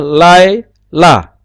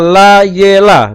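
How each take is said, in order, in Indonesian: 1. Huruf y menutup suku kata pertama tanpa vokal. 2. Bunyi vokal e pendek mengikuti bunyi y. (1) "Harusnya lai la bacanya" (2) "sewa bersuara ... tapi itu salah"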